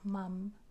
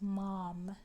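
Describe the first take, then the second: First: It is said with a British vowel. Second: It is said with a North American vowel. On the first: "not mum" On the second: "in North America, right? If you're Canada or United States, mom is actually pronounced mom"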